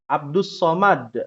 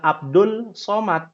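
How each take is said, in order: First: The l blends into the s: Abdus. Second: The l is kept before the s: Abdul. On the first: The speaker calls it right. "Abdus Somad, bukan Abdul Somad" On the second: The speaker calls it wrong. "bukan Abdul Somad"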